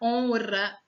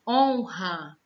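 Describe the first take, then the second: First: The R is pronounced as a soft tap. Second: The R is pronounced as a strong sound. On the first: The speaker calls it wrong. "mas não vai ficar honra" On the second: The speaker calls it right. "Mesmo em palavras que você escute o som dos dois R's"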